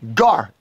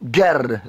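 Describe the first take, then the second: First: The vowel is an open 'ah' sound. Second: The vowel is an 'eh' sound. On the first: The speaker calls it right. "There's no E's in the Hebrew" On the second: The speaker calls it wrong. "so it wouldn't be Ger"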